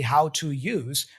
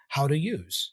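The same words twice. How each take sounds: First: Each word is said separately and fully. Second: The words run together in connected speech. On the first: "She doesn't say how to use" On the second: "she's employing connected speech here"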